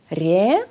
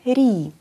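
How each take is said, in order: First: The vowel sounds like a clear 'e'. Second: The vowel sounds like a short 'i'. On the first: The speaker calls it wrong. "Δεν ακούμε ρε" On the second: The speaker calls it right. "ακούμε ρι"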